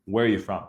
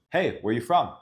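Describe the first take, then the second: First: Where are you from falling like a statement; even tune that drops at the end; commanding question. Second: Questions sliding upward at the end; where are you from rising up at the end, seeking; rising question tune. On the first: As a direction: tell it rather than ask it. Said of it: "I'm almost commanding the question". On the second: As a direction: ask it with a lift on from. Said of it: "my voice is going from down to up". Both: Shown as a demonstration.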